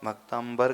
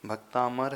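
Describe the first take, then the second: First: भक्तांबर with an added b after the m; mispronounced भक्तांबर. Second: भक्तामर with long aa and plain m, no b; correct भक्तामर. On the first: Teacher showing students the common error, mispronounced भक्तांबर with "mbar". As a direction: end भक्तांबर in "aam-bar". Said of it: "अक्षर बदल दिया आपने". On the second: Teacher giving students the true word, correct भक्तामर with plain "mar". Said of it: "भक्तांबर कर दिया". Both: Shown as a demonstration.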